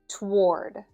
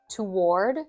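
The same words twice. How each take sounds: First: It is said as one syllable, American style. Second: It is said as two syllables, British style.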